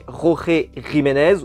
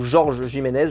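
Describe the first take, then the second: First: The name is said with Spanish sounds. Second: The name is said with French sounds. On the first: "à l'espagnol" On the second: "comme moi je viens de le prononcer"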